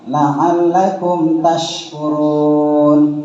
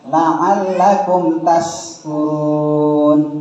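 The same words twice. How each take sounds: First: The second word has a sh sound. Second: The second word has a plain s sound. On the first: May you become thankful people. The speaker calls it right. "Yang pertama, la'allakum tashkurun, maknanya mudah-mudahan engkau menjadi orang-orang yang bersyukur" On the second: May you become drunkards. The speaker calls it wrong. "kalau yang kedua, ... mudah-mudahan kamu menjadi orang yang pemabuk"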